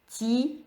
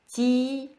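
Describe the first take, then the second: No difference in how they are said.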